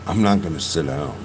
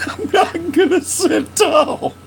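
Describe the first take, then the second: First: Said in the usual way. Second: Laughing. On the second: Real, not acted. Laughing repeat of joke.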